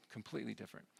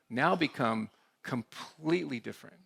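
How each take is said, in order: First: "completely different" repeated much softer, fading; quiet echo. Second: Said in the usual way. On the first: Real, not acted. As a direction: let the words "completely different" drop away into a soft echo.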